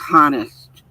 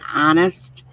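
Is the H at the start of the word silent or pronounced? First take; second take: pronounced; silent. First: The word starts with a pronounced H. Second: The word starts with a silent H. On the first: The speaker calls it wrong. "he would always say honest" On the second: The speaker calls it right. "instead of saying honest"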